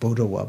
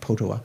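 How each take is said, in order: First: The name begins with a B sound. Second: The name begins with a P sound. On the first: "sometimes as pronounced Bodawa" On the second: "sometimes Potawa"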